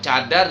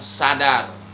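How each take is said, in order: First: The word begins with a 'ch' sound. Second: The word begins with an 's' sound. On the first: The speaker calls it right. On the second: The speaker calls it wrong.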